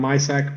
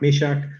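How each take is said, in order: First: The name is said with an anglicized pronunciation. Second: The name is said with its Czech pronunciation. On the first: This is how the name is commonly said in Canada. The speaker calls it wrong. "I heard Canadians pronounce his name as Jan Mysak" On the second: This is the player's actual name pronunciation. The speaker calls it right. "but his name is pronounced Mishak"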